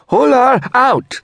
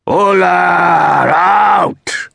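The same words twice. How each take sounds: First: Short, very high woman's protest cry; shout. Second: Long, drawn-out high bellow; sudden roar. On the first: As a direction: shout it high and loud, without drawing it out. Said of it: "she shouted". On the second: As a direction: bellow it like a protest chant, stretching every word. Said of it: "Sintra roared suddenly". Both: A narrator's reading.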